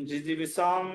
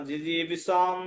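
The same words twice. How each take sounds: Both takes have the same delivery.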